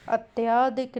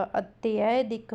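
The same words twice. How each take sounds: First: अत्याधिक with a long या in the middle; wrong long aa. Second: अत्यधिक slow, with a short य; correct short a. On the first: (बीच में लंबा आ, गलत अत्याधिक) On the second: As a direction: say अत्यधिक carefully, short in the middle. (धीरे और छोटे अ के साथ सही अत्यधिक) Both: Shown as a demonstration. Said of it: "अत्याधिक नहीं होगा".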